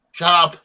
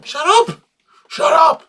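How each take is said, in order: First: Said in the usual way. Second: Mock yell. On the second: Repeating the line for laughs.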